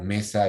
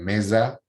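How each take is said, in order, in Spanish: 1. La s es un siseo sordo. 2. La s es un zumbido sonoro, como la z. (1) "o mesa" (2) "ellos dicen mesa"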